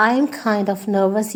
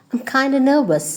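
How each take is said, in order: First: Said in the usual way. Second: "kinda" with a schwa ending, no f; shortened form. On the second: Shown as a demonstration. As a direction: blend kind of into "kinda". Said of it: "you can say".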